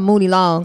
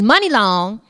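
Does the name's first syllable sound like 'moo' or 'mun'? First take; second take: moo; mun. First: The first syllable sounds like moo. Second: The first syllable sounds like mun. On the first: The speaker calls it wrong. "I've been calling her Mooney Long" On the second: The speaker calls it right. "But it's Money Long"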